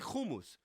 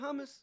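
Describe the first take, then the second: First: It is said with an Israeli pronunciation. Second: It is said with an American pronunciation. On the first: The speaker is from Israel. "because I'm from fucking Israel" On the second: The speaker is not from Israel. "If you're not, you say hummus"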